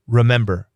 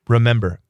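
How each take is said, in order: First: The first syllable is reduced to a bare 'r'. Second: The same.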